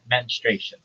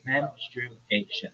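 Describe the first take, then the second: First: The word is said with three syllables. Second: The word is said with four syllables. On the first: The speaker calls it wrong. "That's not right" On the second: The speaker calls it right. "It's four syllables"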